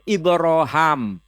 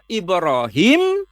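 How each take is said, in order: First: The last syllable has an 'a' vowel. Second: The last syllable has a long 'ee' vowel. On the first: "juga bisa dibaca Ibroham" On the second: "Bisa dibaca Ibrahim"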